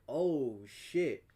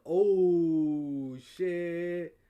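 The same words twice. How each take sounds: First: Understated short realization; mild retold surprise. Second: Loud, long stretched "oh"; drawn-out retold shock. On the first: Hearing about stolen packages, mild retold surprise. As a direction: react with a touch of dismay. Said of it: "I'm like". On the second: Learning they're both guests, drawn-out retold shock. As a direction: draw out the dawning realization. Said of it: "I was like".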